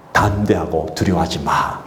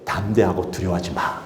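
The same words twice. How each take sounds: First: Lower, slow, "담대하고" leaned on; deliberate, tender command; slow low reassurance; slow fatherly assurance. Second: Hushed reassuring command; quiet fatherly assurance. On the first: God's word repeated. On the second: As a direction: lower and softer, gentle. God's one word to Joshua. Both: Acted.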